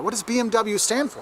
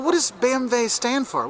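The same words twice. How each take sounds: First: "B M W" as bee-em-double-you inside the question; English "B M W", W said double-you; American pronunciation. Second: "B M W" as bay-em-vay inside the question; German "B M W", W said vay; German letter names. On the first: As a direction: ask it with "B M W" in English letters. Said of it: "say it the American way first". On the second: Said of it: "say the letters like it is in German". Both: Shown as a demonstration.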